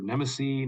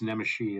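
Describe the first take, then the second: First: The middle consonant is a plain s sound. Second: The middle consonant is an sh sound. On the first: The speaker calls it wrong. "I've heard Nemesi" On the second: The speaker calls it right. "it's Nemeshi. It's the Hungarian pronunciation"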